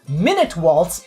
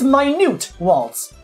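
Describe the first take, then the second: First: Minute is pronounced like the unit of time. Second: Minute is pronounced like the word for tiny. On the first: The piece lasts one minute. The speaker calls it wrong. "It's not minute waltz" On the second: The piece is small. The speaker calls it right. "Minute meaning small"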